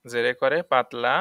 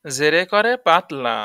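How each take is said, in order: First: Said in the usual way. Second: জেরে করে পাতলা said slowly and louder, punching করে; emphatic rule. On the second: Shown as a demonstration. Teacher stresses the rule loudly and slowly for students. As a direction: hammer the rule home. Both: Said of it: "পাতলা করে পড়া আর হচ্ছে মোটা করে পড়া".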